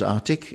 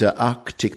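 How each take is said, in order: First: One of the middle consonants is dropped. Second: Both middle consonants are clearly pronounced.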